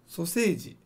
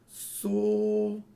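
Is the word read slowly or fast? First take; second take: fast; slowly. First: The word is read fast. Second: The word is read slowly.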